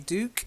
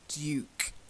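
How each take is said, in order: First: The word is said in an American accent. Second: The word is said in a British accent. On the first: "I'm sure Americans say Duke" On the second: "I'll give you the British pronunciation"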